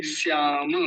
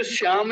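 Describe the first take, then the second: First: श्याम said as "syaa-ma"; full final vowel. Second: श्याम cut short as "syaam"; wrong dropped vowel. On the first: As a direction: sound the "a" after म in श्याम. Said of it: "नहीं कहेंगे, श्याम". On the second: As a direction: end श्याम on a closed m. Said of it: "श्याम नहीं कहेंगे". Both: Shown as a demonstration.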